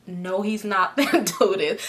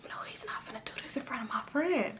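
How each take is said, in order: First: Said in the usual way. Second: Hurried, voiceless whisper; acted-out panicked thought under the breath; horrified whisper. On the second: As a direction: whisper it fast in disbelief. Acting out her horrified private thought.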